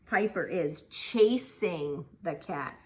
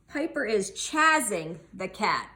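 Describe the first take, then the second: First: Chasing is said with a long vowel. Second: Chasing is said with a short vowel. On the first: The speaker calls it right. "you can always try both vowel sounds" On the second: The speaker calls it wrong. "it sounds like chazzing"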